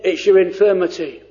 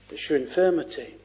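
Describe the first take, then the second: First: "your" leaned on, falling; stress on your. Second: "It's your infirmity" dropped low, soft and fast; quiet, quick aside. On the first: Preacher to congregation, stressing "your". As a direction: point at "your" in "it's your infirmity". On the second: Preacher repeating the rebuke to himself, softly. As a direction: murmur it back to yourself. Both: Shown as a demonstration.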